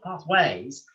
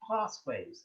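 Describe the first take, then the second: First: The stress is on the second syllable. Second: The stress is on the first syllable. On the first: The speaker calls it wrong. "It's not pathways" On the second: The speaker calls it right. "but it's pathways"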